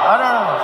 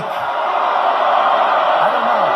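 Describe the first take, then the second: First: Said in the usual way. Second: Slow, whispered, drawn-out "I don't know"; mock Feinstein denial. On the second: Mocking Dianne Feinstein's answer about the leak, slow whispered. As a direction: play her dodging the question in a slow whisper.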